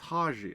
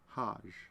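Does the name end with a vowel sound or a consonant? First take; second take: vowel; consonant. First: The name ends with an audible final vowel. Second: The name ends on a consonant, no final vowel. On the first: "it's Haji" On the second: "I feel like the I is silent"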